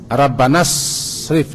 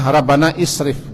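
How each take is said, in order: First: The words run together with no vowel between. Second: The words are separated, with an added vowel sound. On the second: "Kalau dipisah"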